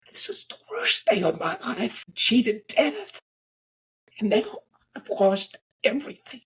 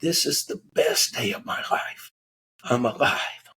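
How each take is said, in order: First: High, sobbing, broken voice; crying in despair. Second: Breathless, half-whispered tearful joy; crying with relief. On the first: Crash survivor sobbing on the ground in despair. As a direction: wail it out, voice cracking with tears. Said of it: "and he's crying". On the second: Crash survivor weeping with relief, tearful whisper. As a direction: sob out the relief of being alive. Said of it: "he's crying hysterically". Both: Retold or imitated.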